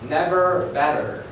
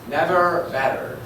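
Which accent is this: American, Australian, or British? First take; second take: American; American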